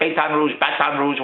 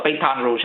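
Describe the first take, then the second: First: Trying out "Baton Rouge" two ways, unsure of the sounds; groping for how "Baton Rouge" is said; unsure pronunciation. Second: "Baton Rouge" said the Philly way, bah-TON roozh; "Baton Rouge" as he says it at home; Philadelphia pronunciation. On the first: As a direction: test "Baton Rouge" again, fumbling the vowels. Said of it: "how do you say it?". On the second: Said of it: "we call it Baton Rouge". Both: Shown as a demonstration.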